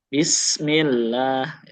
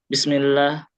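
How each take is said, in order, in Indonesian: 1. Bunyi s-nya ditarik panjang dan mendesis. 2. Bunyi s-nya dipotong pendek dan cepat. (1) "tapi tuntasin dulu alirannya" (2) "Bacanya jangan bismillah"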